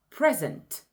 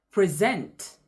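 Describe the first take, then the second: First: "present" stressed on the first syllable, PREsent. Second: "present" stressed on the second syllable, preSENT. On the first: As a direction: punch the PRE in "present", like the gift. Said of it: "emphasis placed on a particular syllable". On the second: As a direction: lean on SENT in "present", like the verb. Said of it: "present means the action of doing". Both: Shown as a demonstration.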